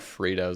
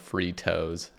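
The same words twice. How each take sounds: First: The name is said in a plain, ordinary way. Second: The name is said with strong, exaggerated force. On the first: "like the chip brand" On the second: "pronounce it like really strongly"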